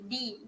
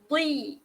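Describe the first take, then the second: First: The first consonant is a light, thin d. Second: The first consonant is a heavy, thick dh. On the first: The speaker calls it wrong. "Jangan sebut di, di. Di tu huruf da" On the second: The speaker calls it right. "Beza dengan huruf da eh"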